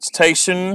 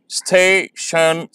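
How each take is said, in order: First: Said in the usual way. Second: "station" stretched as sta-tion; slow syllables. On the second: Shown as a demonstration. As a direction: break "station" in two slow beats. ("station" धीरे, दो हिस्सों में) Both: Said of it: "इन्हें मैं slowly pronounce करूँगा".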